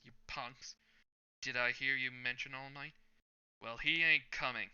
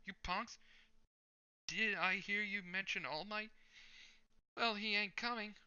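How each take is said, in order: First: A tougher, heavier hero entrance; the hero's entrance done the intended way; gruff hero voice. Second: Much higher, thin hero voice; a squeaky, too-high take on the hero; high-pitched first try at the hero's entrance. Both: Acted. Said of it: "I wanted to do this in a certain way".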